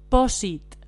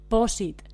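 Both takes have the same delivery.

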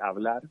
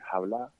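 First: The word starts with a vowel, standard Spanish. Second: The word starts with a breathy Andalusian h.

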